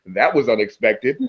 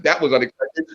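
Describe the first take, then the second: First: Lower, understated remark; deadpan. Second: Said in the usual way. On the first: Retold or imitated. Battle rapper addressing the crowd, dry deadpan. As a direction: drop it dryly for the laugh.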